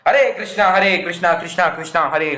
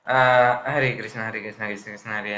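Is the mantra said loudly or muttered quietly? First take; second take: loudly; muttered quietly. First: It is said loudly and forcefully. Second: It is muttered quietly under the breath. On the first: The chant is said aloud for others to hear. "जोर जोर से" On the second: The chant is spoken only to oneself. "खुद के अंदर ही बड़बड़ाना"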